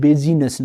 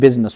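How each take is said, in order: First: The word is said with three syllables. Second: The word is said with two syllables. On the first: The speaker calls it wrong. "موږ داسې نه وایو بیزینس" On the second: The speaker calls it right. "بلکې بزنس وایو"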